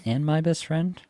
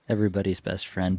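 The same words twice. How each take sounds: First: Best friend rising at the end, like a question; upward inflection. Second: Said in the usual way. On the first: Real, not acted. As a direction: let "and my best friend" lift upward on "best", as if asking. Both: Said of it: "you had an upward inflection at the end of that".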